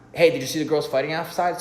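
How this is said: It is spoken really fast.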